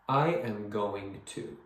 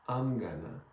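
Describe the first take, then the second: First: Each word is pronounced fully and separately. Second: The words blend together into almost one word. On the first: The speaker calls it wrong. "But don't pronounce each word. Do not say" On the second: The speaker calls it right. "Try to make it sound almost like one word"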